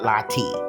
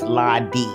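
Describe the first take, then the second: First: The middle consonant is a t sound. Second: The middle consonant is a d sound. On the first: The speaker calls it wrong. "not Lottie" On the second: The speaker calls it right. "It's Lottie"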